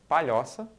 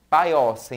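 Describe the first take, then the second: First: The word keeps its palatal lh sound. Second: The lh sound becomes a plain i sound. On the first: This is the standard form. "e não" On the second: The speaker is from the rural Northeast. "pronunciadas de modo característico"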